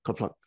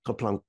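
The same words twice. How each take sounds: The two takes are said the same way.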